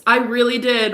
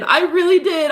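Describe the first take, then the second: First: Said in the usual way. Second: Much higher, louder, pleading repeat; voice breaking. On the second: Real, not acted. Insisting to viewers she believed in him, voice breaking. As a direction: let it break upward as the hurt hits.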